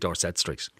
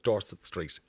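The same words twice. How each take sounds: First: Dorset is said the local Dublin way. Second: Dorset is said like the English county. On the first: It marks the street as being in Dublin. The speaker calls it right. "People who live in and around the area will say, oh, it's definitely Dorset Street" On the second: It sounds like the county in England. The speaker calls it wrong. "the reason they don't call it Dorset Street"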